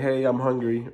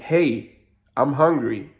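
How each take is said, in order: First: It is said fairly quietly. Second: It is said more loudly.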